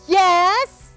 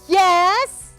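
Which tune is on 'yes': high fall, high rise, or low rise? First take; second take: high rise; high rise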